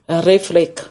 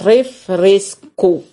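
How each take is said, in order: First: The word is clipped, its ending dropped. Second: The word is said in full, every syllable. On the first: This is how it is said in Santo Domingo. "Saint-Domingue, c'est refrec, comme ça dit" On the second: This is how it is said here. "Ici, c'est refresco. Faut bien prononcer"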